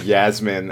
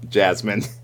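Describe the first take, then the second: First: The name begins with a y sound. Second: The name begins with a j sound. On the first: The speaker calls it right. "as I discovered from the subtitles" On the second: The speaker calls it wrong. "I was just mispronouncing"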